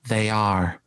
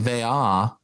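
First: The final R sound is clearly pronounced. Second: The final R sound is dropped. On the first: The speaker calls it wrong. "she hits that R" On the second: The speaker calls it right. "It should sound like they are"

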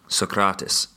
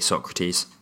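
First: It is said with a Greek pronunciation. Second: It is said with an English pronunciation. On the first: The speaker calls it right. "How does he pronounce it?" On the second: The speaker calls it wrong. "he really, really laughed the first time he heard me say Socrates"

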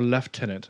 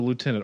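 First: It is pronounced the British way. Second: It is pronounced the American way.

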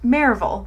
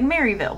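First: It is said the local, unexpected way. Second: It is said the literal, expected way. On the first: This is how people who live there say it. The speaker calls it right. "we pronounce things like the way you would not expect" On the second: This is how an outsider would say it. The speaker calls it wrong. "if you read it, it's like Maryville, but it's like, no, we don't pronounce it like that"

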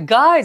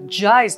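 First: The syllable starts with a hard g sound. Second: The syllable starts with a soft j sound. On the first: The speaker calls it wrong. "guys じゃないですから" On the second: The speaker calls it right. "Jize と呼びますからね"

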